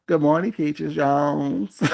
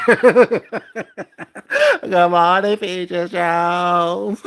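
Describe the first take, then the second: First: Said in the usual way. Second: Slow, drawn-out taunting hello; mocking sing-song greeting. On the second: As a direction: stretch it out to mock her.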